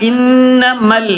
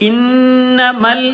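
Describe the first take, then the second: The two takes are said the same way.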